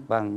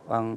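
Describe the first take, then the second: No difference in how they are said.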